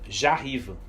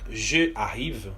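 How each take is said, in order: First: The vowel of je is dropped and joined. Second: The vowel of je is fully pronounced. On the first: The speaker calls it right. "eu vou dizer j'arrive, com apóstrofo" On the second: The speaker calls it wrong. "em vez de eu dizer je arrive"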